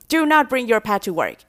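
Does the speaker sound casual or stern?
stern. It is said sternly, with do not stressed apart. It is a serious warning to take notice. "也是在强调。通常这个口气一出来的时候，大家都会比较有警觉性"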